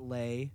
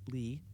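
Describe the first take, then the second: First: The vowel sounds like the one in 'day'. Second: The vowel sounds like the one in 'see'. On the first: The speaker calls it wrong. "not Lay" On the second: The speaker calls it right. "That's Lee"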